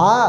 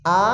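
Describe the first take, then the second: First: আ squeezed from inside the throat, as in Arabic ain; pressed throat sound. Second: Said in the usual way. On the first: Shown as a demonstration. Teacher contrasting two sounds, throat-pressed আ. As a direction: constrict the throat on আ. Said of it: "গলার ভিতর থেকে চাপ দিয়ে". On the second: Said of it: "একরকম উচ্চারণ".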